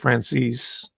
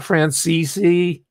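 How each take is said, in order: First: The surname is said with an English pronunciation. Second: The surname is said with an Italian pronunciation. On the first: This is how the name's owner wants it said. "or he calls it Francis" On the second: This is the original form of the name. "I accidentally give it the more appropriate Italian pronunciation"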